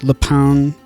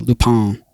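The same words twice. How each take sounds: First: The name is said with English sounds. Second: The name is said with French sounds. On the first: "I think that's how you pronounce it" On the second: "Like a very French"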